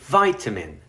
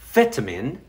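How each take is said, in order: First: It is said with American pronunciation. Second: It is said with British pronunciation.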